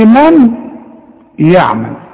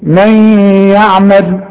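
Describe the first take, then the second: First: The n is said clearly before the y. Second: The n blends into the following y sound. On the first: The speaker calls it wrong. "اوعى بقى تقول لي" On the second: The speaker calls it right. "تقول ايه"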